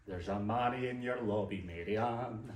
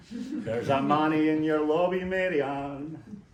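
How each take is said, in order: First: Sung refrain. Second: Sung, much louder, belt out the repeat, slowing on the final Mary Ann; sung, belted refrain. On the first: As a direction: chant the lobby line in a lilting tune. Sung refrain, first take. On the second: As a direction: sing it full out. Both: Acted.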